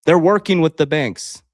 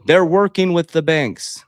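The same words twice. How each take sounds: First: Loud, insistent statement; emphatic call-out. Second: Loud and slow, each word weighted; slower, heavier second telling; slow emphatic repeat. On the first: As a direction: drive the point home hard. Calling out the banks. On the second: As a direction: hammer "working" home deliberately. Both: Real, not acted.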